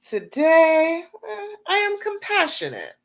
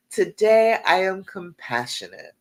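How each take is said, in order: First: High, passionate declaration said with full conviction; heartfelt affirmation. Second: Said in the usual way. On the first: Shown as a demonstration. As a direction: proclaim it like the truest thing you've ever said. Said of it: "say that affirmation like you believe it". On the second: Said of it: "what's a good one for today?".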